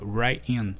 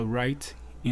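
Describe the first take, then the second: First: "right in" joined into one sound; linked words. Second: "right in" with the t of "right" fully released; over-careful "right in", two separate words; unlinked words. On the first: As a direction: drop the crisp t and glide "right" into "in". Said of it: "ele já junta o right in". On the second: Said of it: "Ele não fala right in". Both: Shown as a demonstration.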